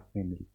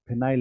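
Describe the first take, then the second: First: It is said with 'fe' and a short 'il' ending. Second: It is said with 'fi' and a long 'ail' ending. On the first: This is what the name actually is. The speaker calls it right. "है क्या फेनिल" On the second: This is how people commonly say it. The speaker calls it wrong. "हम लोग बोलते तो फिनाइल है"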